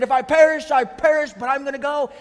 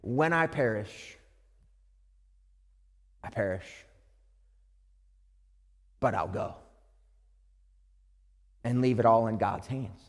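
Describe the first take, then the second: First: Loud, higher defiant vow; bold defiance. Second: Hushed surrender to God; resigned. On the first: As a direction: say it like a bold statement. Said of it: "that's how she said it". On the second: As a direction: let it go, quietly giving in. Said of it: "a statement of resignation". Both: Retold or imitated.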